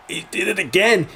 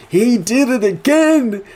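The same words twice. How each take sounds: First: High-pitched disbelief, not yet shouted; amazed realization. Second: Loud, slow, very high exclamation; astonished shout. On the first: His reaction to the repeated line. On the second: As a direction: stretch it out in loud disbelief. His reaction, escalating. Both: Retold or imitated.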